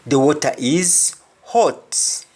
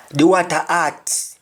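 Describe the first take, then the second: First: "hot" with a breathed H and rounded O; English pronunciation. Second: "hot" said as "at", without H; Jamaican pronunciation. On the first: Teacher translating the Jamaican example into English, H sounded. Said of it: "instead of hot". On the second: Teacher giving a Jamaican example sentence, H dropped. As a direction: open A in "water" and "hot", no H. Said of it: "we say hot". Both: Shown as a demonstration.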